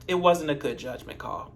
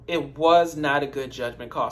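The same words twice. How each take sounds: First: Said in the usual way. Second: "was not" split apart, "not" weighted; stress on not. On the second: Shown as a demonstration. Vlogger repeating her verdict, stress on "not". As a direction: lean hard on "not". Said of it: "repeat with was not split".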